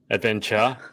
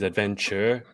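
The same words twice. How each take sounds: First: It is said with an Australian accent. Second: It is said with an American accent.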